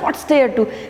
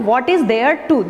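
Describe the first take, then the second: First: It is said quickly with 'what is' contracted. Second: It is said slowly with 'what is' in full. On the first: "यदि आप जल्दी बोलना चाहते हैं तो" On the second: "slowly बोलना चाहते हैं तो"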